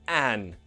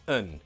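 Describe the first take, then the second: First: The vowel is full and clearly pronounced. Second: The vowel is reduced to a schwa. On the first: The speaker calls it wrong. "we don't pronounce them a and an like that" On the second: The speaker calls it right. "Just a schwa sound"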